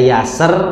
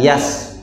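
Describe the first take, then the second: First: The final r is strongly rolled and drawn out. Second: The final r is dropped completely. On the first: "tidak yaser" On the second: "atau tidak yas"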